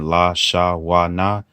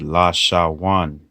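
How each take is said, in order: First: Each letter is said as a separate syllable. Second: The letters are joined into one flowing word. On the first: The speaker calls it wrong. "instead of saying" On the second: The speaker calls it right. "it connects the letters together, so the pronunciation will be one"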